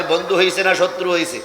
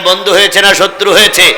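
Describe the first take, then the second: First: Said in the usual way. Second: Louder rallying question. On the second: Real, not acted. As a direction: put the question forcefully to the crowd. (জোর গলায় শ্রোতাদের প্রশ্ন) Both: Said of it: "জোরে বলেন".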